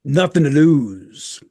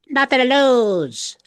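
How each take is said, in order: First: It is said in his natural voice. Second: It is said in a put-on voice.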